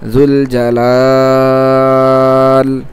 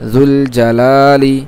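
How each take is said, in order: First: The long vowel is stretched, ending on -l. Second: The long vowel is held briefly, ending in -li. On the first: The reader stops on this word. "এক আলিফ না বরং তিন আলিফ টানতে হবে" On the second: The reading continues without stopping. "এক আলিফ টান আছে"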